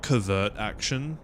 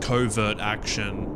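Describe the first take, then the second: First: The stress in covert is on the second syllable. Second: The stress in covert is on the first syllable. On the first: The speaker calls it wrong. "It's not covert action" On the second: The speaker calls it right. "when it becomes covert action, you say it differently"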